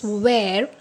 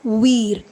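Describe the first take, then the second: First: The vowel sounds like 'air'. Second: The vowel sounds like 'ee'. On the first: The speaker calls it right. "we pronounce this as where" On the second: The speaker calls it wrong. "not we're"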